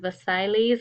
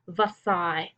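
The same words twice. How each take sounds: First: The L and S sounds are pronounced. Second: The L and S sounds are silent. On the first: The speaker calls it wrong. "I know it looks like it says Versailles or something like that" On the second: The speaker calls it right. "The L's and the E and the S are silent"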